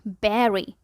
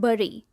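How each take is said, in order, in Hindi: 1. स्वर 'eh' जैसा सुनाई देता है। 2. स्वर 'uh' जैसा सुनाई देता है। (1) "जबकि ये है" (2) "अक्सर इसे बोला जाता है"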